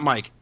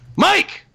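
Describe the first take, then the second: First: The name is said flatly. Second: The name is said excitedly.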